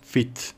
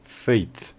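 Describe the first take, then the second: First: The vowel is short, like in fit. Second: The vowel is a long ay glide. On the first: "se realizaría como si la E fuera muda" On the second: "se le suele agregar un sonido EI"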